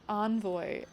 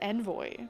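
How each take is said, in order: First: The word is said in a non-British way. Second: The word is said in a British way. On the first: This is how the speaker always heard it. "I always heard it said Envoy" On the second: This is how British-accented characters say it. "every like British accent character in this game says Envoy"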